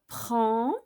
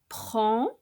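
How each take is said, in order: Both takes have the same delivery.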